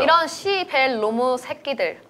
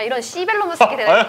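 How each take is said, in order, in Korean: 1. 이 구절은 천천히, 한 단어씩 끊어서 말했어요. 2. 이 구절은 빠르게, 단어들을 붙여서 말했어요.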